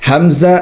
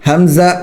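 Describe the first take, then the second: No difference in how they are said.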